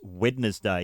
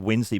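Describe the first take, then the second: First: It is said with three syllables. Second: It is said with two syllables. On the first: This is the proper way to say it. The speaker calls it right. "Wednesday is the correct" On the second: This is how many people say it. The speaker calls it wrong. "I hear people say"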